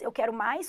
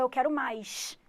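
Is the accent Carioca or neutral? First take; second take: neutral; Carioca. First: It is said with a neutral accent. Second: It is said with a Carioca accent.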